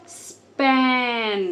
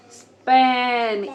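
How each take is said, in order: First: "स्पैन" with the ए stretched slowly; long vowel. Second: "स्पैन" ए held long, louder; long vowel. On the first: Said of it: "सिर्फ हम vowels को लंबा करेंगे". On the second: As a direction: lengthen the ए in "स्पैन", consonants short. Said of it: "ए सिर्फ लंबा होगा". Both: Shown as a demonstration.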